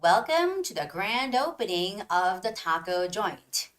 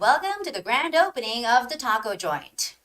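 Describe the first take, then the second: First: It is read at a slow pace. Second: It is read at a very fast pace. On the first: "slow version" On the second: "Now I'm going to read it really fast"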